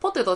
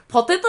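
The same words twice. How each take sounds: First: Said in the usual way. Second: "ポテト" said louder, as the correct version; intonation correction. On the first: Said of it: "ポテトちゃうねん". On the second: Shown as a demonstration. Recalling a pronunciation debate, "ポテト" stressed as the correction. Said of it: "ポテトちゃうねん。".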